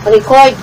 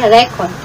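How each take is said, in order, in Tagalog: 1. Binibigkas ito bilang pandiwa. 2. Binibigkas ito bilang pangngalan. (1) "kung verb yung record" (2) "pagka noun, yung record, magiging record lang"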